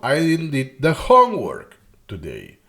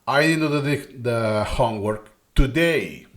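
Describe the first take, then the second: First: The word homework carries the main stress. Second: The word today carries the main stress. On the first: It was the homework that was not done. "it's the homework, right?" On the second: It was not done today, though it was done yesterday. "I emphasize the time that has been today"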